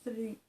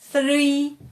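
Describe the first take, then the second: First: The th sound is light and gentle. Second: The th sound is forced and exaggerated. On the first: The speaker calls it right. "We just say three" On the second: The speaker calls it wrong. "we don't say three"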